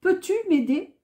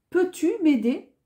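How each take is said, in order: Both takes have the same delivery.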